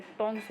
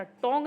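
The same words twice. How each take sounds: First: टोंग्स with s after the ng; correct plural form. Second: टोंग ending on ng, no final s; wrong singular form. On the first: Teacher gives students the plural, टोंग्स with final s. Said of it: "टोंग्स होता है". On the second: Teacher rejects the singular for students, टोंग without final s. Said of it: "टोंग नहीं होता है". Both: Shown as a demonstration.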